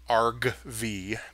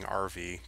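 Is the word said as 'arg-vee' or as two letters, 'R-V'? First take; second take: arg-vee; letters. First: It sounds like 'arg' followed by the letter V. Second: It sounds like the two letters R and V. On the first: The speaker calls it right. "I should probably pronounce it right" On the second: The speaker calls it wrong. "I keep saying rv because it's not a recreational vehicle"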